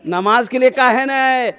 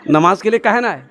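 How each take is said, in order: First: Insistent rebuke. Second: Restrained questioning rebuke; mild reproach. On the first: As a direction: press the same question harder, stretching the end. Holy man repeats the rebuke, insistent. (खींचकर ज़ोरदार डाँट भरा सवाल) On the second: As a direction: ask it reproachfully, holding back. Holy man scolds the mob, first take. (संयमित उलाहना) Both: Acted.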